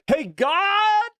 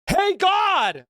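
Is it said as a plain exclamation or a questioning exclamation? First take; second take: questioning; plain. First: It is said as a questioning exclamation. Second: It is said as a plain exclamation. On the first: The speaker calls it right. "there's a question mark and exclamation mark, so it's more like" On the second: The speaker calls it wrong. "there's a exclamation mark"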